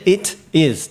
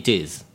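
First: The two words are said with a break between. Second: The two words are run together smoothly. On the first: The speaker calls it wrong. "わざわざ区切る方が言いづらいんですよ" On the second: The speaker calls it right. "言いやすい"

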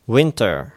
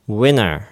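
First: The t after the n is pronounced. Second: The t after the n is dropped.

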